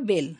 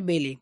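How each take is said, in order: First: The name is said as one syllable. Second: The name is said as two syllables. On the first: The speaker calls it right. "উচ্চারণটা বেল" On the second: The speaker calls it wrong. "Not বেলে"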